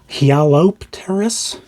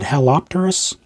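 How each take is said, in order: First: The Y is sounded at the start. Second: The Y is silent at the start.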